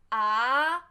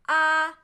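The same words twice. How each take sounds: First: The pitch rises from low to high. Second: The pitch stays level and does not change. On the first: "second tone is rise tone" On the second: "First tone, flat"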